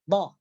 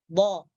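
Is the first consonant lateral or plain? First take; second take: plain; lateral. First: The consonant is a plain d-like sound. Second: The consonant is made with the tongue's side. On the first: The speaker calls it wrong. "hanya mengucapkan dhad saja... tepi lidah tidak menyentuh geraham" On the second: The speaker calls it right. "tepi lidah diangkat menyentuh gusi atas"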